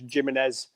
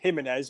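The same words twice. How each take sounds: First: The name is said the Burnley way. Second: The name is said the continental way. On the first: The speaker is from Burnley. "if you're from Burnley" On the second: The speaker is continental. "if you're continental"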